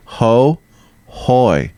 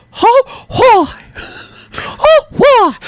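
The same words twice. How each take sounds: First: Said in the usual way. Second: Very high falsetto cartoon whoop; high squeaky mascot voice; Mickey Mouse. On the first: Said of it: "You just say". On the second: Shown as a demonstration. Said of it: "I'm Mickey Mouse".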